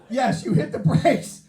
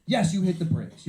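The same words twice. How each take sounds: First: High, loud, drawn-out exclamation; emphatic shout. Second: Said in the usual way. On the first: Real, not acted. Comic giving the crowd the obvious answer, shouting emphatically.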